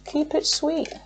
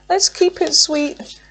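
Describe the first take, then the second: First: Much higher and much softer, almost breathed; soft high murmur to Spirit; hushed plea. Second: Much higher, slow sing-song; lilting high appeal; sing-song plea. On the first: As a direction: murmur it like a little wish over the deck. Hushed plea while shuffling. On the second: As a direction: coax Spirit gently in a lilting voice. Cooing to Spirit about cards. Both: Real, not acted.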